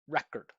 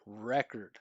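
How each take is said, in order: First: The R and K consonants are emphasized. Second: The vowel sounds are emphasized and resonant. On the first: The speaker calls it wrong. "So consonant sounds would be record" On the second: The speaker calls it right. "Vowel sounds would be record"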